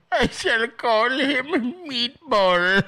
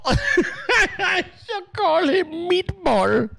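First: Imitating the clip's grand slow naming, raised; slowly and grandly, half laughing; mock grand naming. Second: Slow, high, laughing through the line; laughing imitation. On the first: Host echoing the clip to his viewers, mock grand. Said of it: "Is that Trevor?". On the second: Host repeating the clip line to viewers, laughing hard. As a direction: repeat it while cracking up. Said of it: "Was that Trevor saying meatball?".

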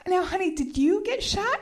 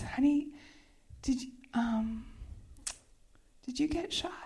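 First: High-pitched, fully voiced query; retold insistent question. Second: Halting, whispery question; retold hushed concern. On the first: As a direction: press the question in a raised pitch. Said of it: "it just went just like this". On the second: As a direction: ask very softly, with long hesitations. Retold hushed question after the gunshot.

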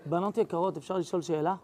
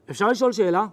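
First: Lower, softer, dead serious question; low, quiet, suddenly solemn ask. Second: Grave, smile-free question; a sober, flat-out serious ask. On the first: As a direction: drop the smile and ask gravely. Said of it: "בטון הכי לא קשור למה שהיה עד עכשיו". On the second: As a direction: ask it straight-faced and heavy. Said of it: "טון אחר". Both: Retold or imitated.

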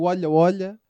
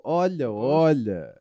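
First: Said in the usual way. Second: "olha, olha" drawn out slow, knowing and low; knowing innuendo tone. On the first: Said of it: "o tom que a gente quer aqui". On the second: Shown as a demonstration. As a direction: say "olha, olha" slowly, as if you know the secret. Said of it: "o tom que a gente quer aqui é o". ("olha, olha" lento e sugestivo)

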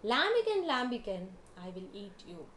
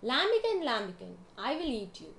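First: Loud call. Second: Calls the name out loud, then drops to a threat; a hungry vulture shouting at the lamb. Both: A narrator's reading. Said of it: "said in a loud voice".

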